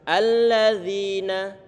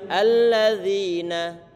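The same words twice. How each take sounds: Both takes have the same delivery.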